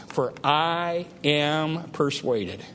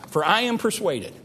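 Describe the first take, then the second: First: Slow, with weight on "I" in "For I am persuaded"; slow reading that lands on "I"; stress on I. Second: Said in the usual way. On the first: Shown as a demonstration. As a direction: lean on "I", drawing out "For I am persuaded". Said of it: "I want you to notice, first of all, that first phrase". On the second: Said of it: "I want you to notice".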